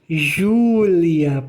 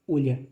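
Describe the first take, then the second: First: The name starts with a 'zh' sound. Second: The name starts with a 'y' sound.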